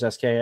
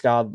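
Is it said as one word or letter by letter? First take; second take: letter by letter; one word. First: It is said as separate letters. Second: It is said as a single word. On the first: The speaker calls it wrong. "not the letters S K" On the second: The speaker calls it right. "it's pronounced Ska"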